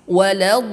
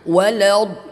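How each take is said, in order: First: The l sound is thin and light. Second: The l sound is thick and heavy. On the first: The speaker calls it right. "tarqiq, tipis" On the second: The speaker calls it wrong. "Jangan walad, ... tidak diperbolehkan"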